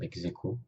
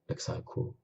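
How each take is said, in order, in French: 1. On le prononce à la française. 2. On le prononce à la façon latine classique. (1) "la prononciation française du latin" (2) "avec la prononciation restituée"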